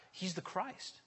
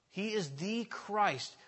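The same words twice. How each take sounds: First: Said in the usual way. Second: He is the Christ with "is" leaned on, slow; slow down and land on "is"; stress on IS. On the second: Shown as a demonstration. Insisting to the congregation, slow stress on is.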